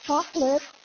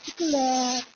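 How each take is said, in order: First: It is said in an American accent, two syllables. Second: It is said in a soft, sweet Ilonggo accent. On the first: "may arte na ... Naging dalawang syllable na lang siya" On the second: "siyempre may lambing yun"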